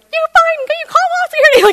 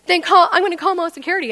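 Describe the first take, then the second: First: Very high, loud shrieking taunt; hysterical mock defiance. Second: Fast, raised, loud threat; imitated yelling manager. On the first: Freaked-out customer taunting the manager back, hysterical high shriek. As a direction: squeal the threat back at full volume. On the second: Manager threatening the customer with security, fast raised yelling. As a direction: act out a fed-up manager's rapid threat. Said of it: "he's yelling at me".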